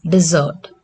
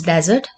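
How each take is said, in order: First: "desert" said de-ZERT, as the verb; last-syllable stress. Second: "desert" said DEZ-ert, as the noun; first-syllable stress. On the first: Teacher showing the verb to learners, last-syllable stress on "desert". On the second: Teacher recalling the noun for learners, first-syllable stress on "desert". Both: Shown as a demonstration. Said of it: "Its pronunciation is different".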